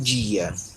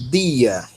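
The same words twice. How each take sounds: First: It starts with a softened dj sound. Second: It starts with a plain d sound. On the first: The speaker calls it wrong. "e não" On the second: The speaker calls it right. "O delta tem o som de D"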